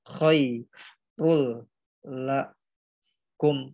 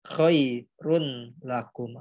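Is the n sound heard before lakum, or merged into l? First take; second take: merged; heard. First: The n merges into a doubled l sound. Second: The n sound is heard before the l. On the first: The speaker calls it right. "ro domah tain ini dileburkan ke huruf lam yang bertasdid ini. Jadi dibacanya" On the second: The speaker calls it wrong. "Jangan juga teman-teman bacanya khairun lakum"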